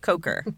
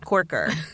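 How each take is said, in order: First: The first vowel is a long 'o' sound. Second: The first vowel is an 'or' sound. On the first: The speaker calls it right. "It's Coker" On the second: The speaker calls it wrong. "and it's not Corker"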